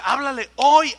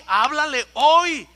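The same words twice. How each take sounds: First: Loud urgent command, háblale hoy pressed hard; commanding call. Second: Loud and slow, háblale hoy dragged out with a falling hoy; slow insistent command. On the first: The Spirit urging the boy to speak, loud command. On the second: The Spirit insisting again to the boy, slow loud command. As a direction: stretch it out, insisting. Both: Retold or imitated. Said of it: "el Espíritu me decía".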